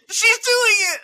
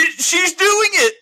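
First: High, loud squealing "She's doing it!"; ecstatic shriek. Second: Excited. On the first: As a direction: scream it in disbelieving delight. Retold excitement, shrieking. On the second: Retold excitement at AI singing. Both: Retold or imitated.

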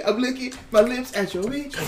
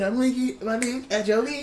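First: Said in the usual way. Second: Slick lip-licking line. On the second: Shown as a demonstration. Friend repeats his own joke in a slick put-on voice. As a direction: lean into the line like a smooth rapper. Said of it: "I said".

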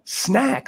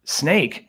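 First: Put-on "snack." with a short bright a, said higher as a girl's correction; correcting to snack. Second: "Snake?" asked back with a long ai vowel, puzzled rise. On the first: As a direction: hit the short a in "snack." lightly imitating a girl. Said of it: "she was saying snack". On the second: Retold or imitated. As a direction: say "Snake?" as the reptile, questioning. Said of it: "And I said".

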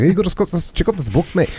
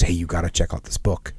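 First: Put-on high-pitched, mumbled Scottish accent; mock Scottish mumble, much higher than usual; mumbling Scotsman. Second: Said in the usual way. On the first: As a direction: imitate a Scottish buddy, words slurred together and pitched up. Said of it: "he's a mumbler. He's more like". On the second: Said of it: "I won't try and do his Scottish accent".

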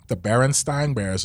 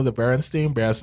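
First: "Berenstain" ending to rhyme with line; "Berenstain" as BAIR-en-styne; contrasting pronunciation. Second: "Berenstain" ending to rhyme with rain; "Berenstain" as BAIR-en-stayn; misremembered pronunciation. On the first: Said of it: "this isn't actually their name". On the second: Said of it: "But this isn't". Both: Shown as a demonstration.

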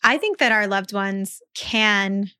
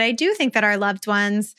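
First: Said in the usual way. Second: "do" stressed to affirm the belief; emphatic "do", the rest in an ordinary voice. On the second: Real, not acted. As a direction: lean on the word "do", insisting gently. Restates with emphatic do.

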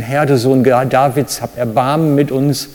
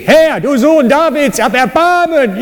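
First: Said in the usual way. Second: Desperate shouting plea. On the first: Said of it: "nur damit ihr eine Vorstellung habt". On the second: Shown as a demonstration. Preacher acts out the blind beggars crying to Jesus, desperate shout. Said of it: "So ungefähr, nur damit ihr eine Vorstellung habt".

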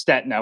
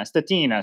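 First: "Stetina" as STET-na, two syllables; silent-I pronunciation. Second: "Stetina" as steh-TEE-na, raised pitch; Italian-style pronunciation. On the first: Shown as a demonstration. Guest corrects his surname for host, "Stetina" as STET-na. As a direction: skip the I in "Stetina": STET-nuh. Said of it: "with a silent I". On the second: Retold or imitated. Guest repeats Italian racers' reading, "Stetina" as steh-TEE-na. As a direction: lift and stretch the TEE in "Stetina". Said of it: "all the Italians racing in Europe would think".

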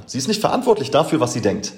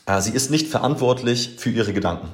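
First: Schnell und höher, ungläubig nachgesprochen; äfft die Ausrede ungläubig nach; spöttisch nachgeäfft. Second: Said in the usual way. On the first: Retold or imitated. (spöttisch zitiert, schneller und höher) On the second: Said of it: "die zu ihm meinte".

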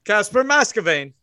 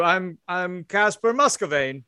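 First: "Muscovane" with first syllable like "mass"; "Muscovane" with a short a up front; changed pronunciation. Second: "Muscovane" with first syllable like "muss"; "Muscovane" with an uh vowel up front; first pronunciation. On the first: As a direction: say "Muscovane" as MASS-kuh-vain. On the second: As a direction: say "Muscovane" as MUSS-kuh-vain. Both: Acted. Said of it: "that's a different thing than you just said".

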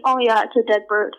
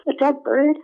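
First: Said in the usual way. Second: "A dead bird?" as a question, pitch lifted; questioning lift through "A dead bird?"; puzzled echo question. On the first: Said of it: "he just told me". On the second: Retold or imitated. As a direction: echo "A dead bird?" in mild disbelief, higher. Puzzled echo of cousin's answer.

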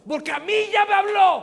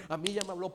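First: Much higher, much louder full-force cry; preacher's shout. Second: Said in the usual way. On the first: Real, not acted. Preacher to congregation, climactic shout. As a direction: shout the refrain at the peak.

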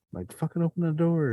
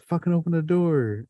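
First: High-pitched mock panic; urgent retold demand. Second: High, strained mock yell at the door; frantic retold order. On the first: Trapped teen pushing the guy to open the door, high and frantic. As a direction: replay the frantic order at the door. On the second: Scared teen snapping at the friend stuck at the door, high and urgent. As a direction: push him hard to open it, in a retold panic.

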